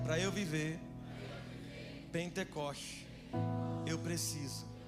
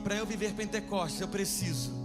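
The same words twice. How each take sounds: First: The phrase is spoken at a slower pace. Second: The phrase is spoken at a fast pace. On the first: The speaker calls it right. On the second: The speaker calls it wrong.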